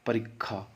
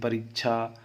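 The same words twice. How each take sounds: First: The middle consonant is a doubled kkh sound. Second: The middle consonant is a single aspirated chh. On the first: "क ख में भी बदल सकते हैं" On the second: "ये परीक्षा छ में भी बदल सकते हैं"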